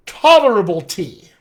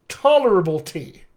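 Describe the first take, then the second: First: Tolerable tea, TOL hit louder, tea stressed. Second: Tolerable tea, TOL and TEA as the beats; stress rhythm demo. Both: Shown as a demonstration. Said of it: "Ta and T now become my stress syllables".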